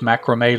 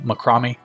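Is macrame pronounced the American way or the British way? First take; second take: American; British. First: It is pronounced the speaker's usual American way. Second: It is pronounced the way they say it in England.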